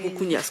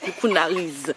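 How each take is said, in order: First: The name ends with a 'nyas' sound. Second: The name ends with a 'nariz' sound. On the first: The speaker calls it wrong. "pas Coucougnas" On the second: The speaker calls it right. "Ah oui"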